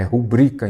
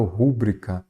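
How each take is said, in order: First: "rubrica" stressed as ru-BRI-ca; second-syllable stress. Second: "rúbrica" stressed as RÚ-bri-ca; first-syllable stress. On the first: Teacher giving students the correct form, "rubrica" with stress on BRI. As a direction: put the weight on BRI in "rubrica". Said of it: "é rubrica". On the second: Teacher rejecting the wrong form, "rúbrica" with stress on RÚ. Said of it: "eu não falo rúbrica". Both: Shown as a demonstration.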